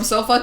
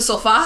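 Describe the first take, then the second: First: It is said with an English pronunciation. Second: It is said with a Spanish pronunciation. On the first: "from English" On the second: "to Spanish"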